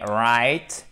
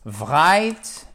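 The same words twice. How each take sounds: First: "right" starting on a clean English R, no V; correct pronunciation demo. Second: "right" wrongly begun with a V, as "vright"; mispronunciation demo. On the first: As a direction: model "right" slowly with a pure R. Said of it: "mais right et". (« right » bien dit, R anglais sans V) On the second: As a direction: show the mistake: a V sound before "right". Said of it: "de la même façon qu'on ne dit pas". (« right » mal dit, « vright ») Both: Shown as a demonstration.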